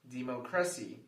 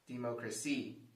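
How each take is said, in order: First: The stress is on the third syllable. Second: The stress is on the fourth syllable. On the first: "If we stress the third syllable" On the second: "If we stress the fourth syllable"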